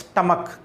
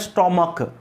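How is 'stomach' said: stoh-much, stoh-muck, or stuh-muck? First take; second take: stuh-muck; stoh-muck. First: It has an 'uh' vowel and ends in 'k'. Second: It has an 'oh' vowel and ends in 'k'. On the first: The speaker calls it right. "Pronunciation क्या है, स्टमक" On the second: The speaker calls it wrong. "या कई लोग कहते हैं स्टोमक, ना स्टोमक है"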